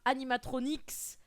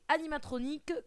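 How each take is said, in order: First: The word ends in a ks sound. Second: The word ends in a plain k sound. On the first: The speaker calls it wrong. "et pas animatronics" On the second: The speaker calls it right. "La bonne prononciation en français c'est animatronique Q U E"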